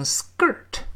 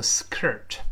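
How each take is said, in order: First: SKIRT with the k softened to a g after the s; k voiced to g. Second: SKIRT with a puffed, breathy k after the s; k left aspirated. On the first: Teacher showing learners how we read the word, "skirt" with k turned to g. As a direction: say "skirt" like "sgirt". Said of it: "我们读成skirt". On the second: Teacher showing learners what not to say, "skirt" with an aspirated k. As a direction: say "skirt" with a full voiceless k. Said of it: "而不要读成skirt". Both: Shown as a demonstration.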